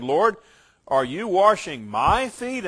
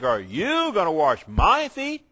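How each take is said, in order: First: Said in the usual way. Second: "you" hit hard in disbelief; stress on YOU. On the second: Shown as a demonstration. Peter stunned that his Lord would wash him, stress on "you". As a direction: lean on "you", shocked Peter. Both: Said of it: "the pronouns are emphatic".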